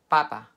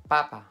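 No difference in how they are said.

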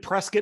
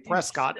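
First: It is pronounced the way local residents say it. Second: It is pronounced the way outsiders say it. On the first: The speaker lives there. The speaker calls it right. "So I'm in Prescott" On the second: The speaker is not from there. The speaker calls it wrong. "if you're from not here, you say Prescott"

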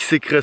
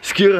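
First: The word is said with two syllables. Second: The word is said with one syllable. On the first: The speaker calls it wrong. "Eben nicht Sikre" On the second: The speaker calls it right. "sondern Skyr heißt"

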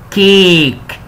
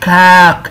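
First: The vowel is a short 'i' sound. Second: The vowel is an open 'a' sound. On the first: The speaker calls it right. "لا المره دي كيك. كيك فهو مكسور شويه" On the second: The speaker calls it wrong. "مش كاك"

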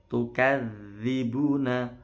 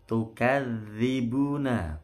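No difference in how they are said.

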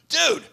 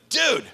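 The two takes are said the same way.

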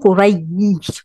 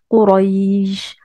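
First: The y sound is pressed hard and short. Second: The y is light and the vowel is lengthened. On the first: The speaker calls it wrong. "vous n'allez pas dire Quraïj, vous n'allez pas appuyer sur le ya" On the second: The speaker calls it right. "vous allez la prononcer tellement de manière légère qu'on va entendre une sorte de prolongation du A"

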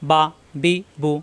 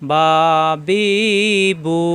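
First: The syllables are read quickly and short. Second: The syllables are read slowly and drawn out. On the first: The speaker calls it right. "এরকম তাড়াতাড়ি পড়তে হবে" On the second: The speaker calls it wrong. "আমরা যদি এভাবে পড়ি বা বি বু, এভাবে পড়া যাবে না"

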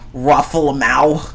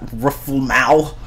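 Both takes have the same delivery.

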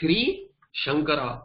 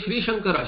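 First: There is a pause between the two words. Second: The two words run together without a pause. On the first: The speaker calls it wrong. "You cannot say Shri Shankara" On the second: The speaker calls it right. "we say Shri Shankara"

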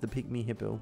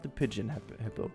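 First: The first word sounds like 'pig-mee'. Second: The first word sounds like 'pidgeon'. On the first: The speaker calls it right. "which is not the pigeon hippo" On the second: The speaker calls it wrong. "that was my weird pronunciation at the very beginning"

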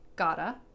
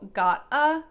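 First: The words are reduced and run together as 'gotta'. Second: The words are said separately as 'got a'.

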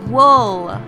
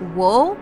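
First: The vowel is a short 'ull' sound. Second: The vowel is a drawn-out 'oo' sound. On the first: The speaker calls it right. "but it's wool. Ull. Ull" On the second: The speaker calls it wrong. "She tends to say wool, which is, I suppose, a correct pronunciation of the OO sound"

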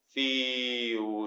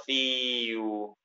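First: The syllable is loose and relaxed. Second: The syllable is tense and overworked. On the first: The speaker calls it right. "Fíjense que mi molde prácticamente no cambia" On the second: The speaker calls it wrong. "yo no estoy haciendo fiu... estoy como poniendo demasiada atención en donde no se necesita"

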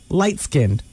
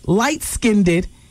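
First: It is said with a standard pronunciation. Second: It is said with a hood pronunciation. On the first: "instead of light-skinned" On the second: "you say light-skinned"

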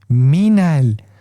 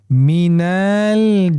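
First: The vowel in minel is kept short. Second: The vowel in minel is drawn out long. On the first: The speaker calls it right. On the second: The speaker calls it wrong.

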